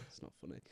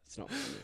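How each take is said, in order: First: Breathy whispered scold. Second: Mock-serious squeak, very high; squeaky high voice. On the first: Pretend. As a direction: drop to a whisper, mock-serious. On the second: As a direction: pitch it way up, half laughing. Mock scolding after offensive joke.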